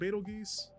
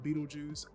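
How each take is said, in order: First: It sounds like 'bet-el-geuse'. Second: It sounds like 'beetle juice'. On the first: The speaker prefers saying it this way. "I like to pronounce it Betelgeuse" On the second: Some other people say it this way. "I have friends who will call it Beetlejuice"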